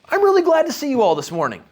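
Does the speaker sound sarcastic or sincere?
sincere. The greeting sounds warm and sincere. The speaker is glad to see them.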